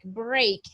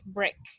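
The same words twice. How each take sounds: First: The vowel is long, rhyming with 'make'. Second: The vowel is short, rhyming with 'neck'. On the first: The speaker calls it wrong. "it doesn't sound like uh, a sound like break" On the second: The speaker calls it right. "It sounds like break, breakfast"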